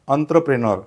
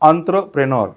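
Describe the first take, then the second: No difference in how they are said.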